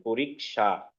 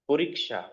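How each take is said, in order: First: পরীক্ষা said slowly with a clear ksha cluster; careful pronunciation. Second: পরীক্ষা said whole, with a clear ksha cluster; joined-up pronunciation. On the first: Teacher models পরীক্ষা for students, carefully pronounced. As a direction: model পরীক্ষা for the class, each sound clear. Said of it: "সবাই ভালো করে শুনবেন". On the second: Teacher shows students the full word, carefully said. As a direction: put the syllables back together into পরীক্ষা. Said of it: "উচ্চারণটা এভাবে করতে হবে". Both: Shown as a demonstration.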